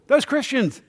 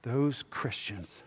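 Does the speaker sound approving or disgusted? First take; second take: approving; disgusted. First: Said in a warm, approving tone. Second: Said in a scornful, disgusted tone. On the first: The group is admired. "They're cool" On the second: The group is looked down on.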